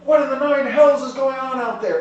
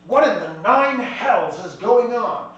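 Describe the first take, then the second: First: Loud, high-pitched angry yell; captain bellowing in alarm; shouting. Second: Loud, drawn-out exclamation; exasperated captain, raised voice; indignant outburst. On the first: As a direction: shout it out the door. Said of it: "he's shouting as he's going outside". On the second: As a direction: demand it slowly, punching each word. Captain startled as ship shakes. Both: Acted.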